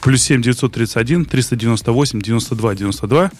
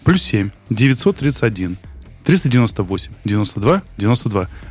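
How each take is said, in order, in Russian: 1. Номер читают в обычном темпе. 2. Номер читают медленнее.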